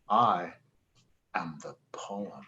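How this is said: The stress is on "poem".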